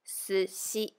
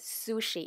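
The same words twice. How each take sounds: First: It is pronounced with a Japanese-style shi sound. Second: It is pronounced with an English-style sh sound. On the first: The speaker calls it right. "it is sushi" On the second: The speaker calls it wrong. "is not really pronounced as sushi in Japanese"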